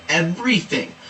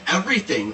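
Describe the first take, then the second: First: "everything" stretched out for emphasis; emphatic EVERYTHING. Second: Said in the usual way. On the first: Acted. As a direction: lean hard on every syllable of "everything". Repeats the word for emphasis.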